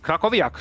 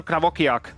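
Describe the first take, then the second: First: Krakowiak said as "kra-ko-viak"; self-corrected Krakowiak, "krakoviak"; corrected surname. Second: Krakowiak said as "kra-VOK-iak"; mispronounced surname. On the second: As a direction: swap the middle consonants of Krakowiak, "kravokiak". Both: Real, not acted.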